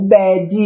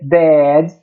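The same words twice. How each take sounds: First: An extra i vowel follows the final d. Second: The final d is soft with no vowel after. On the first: The speaker calls it wrong. "temos que evitar as terminações com I, como bad" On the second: The speaker calls it right. "O correto seria bad"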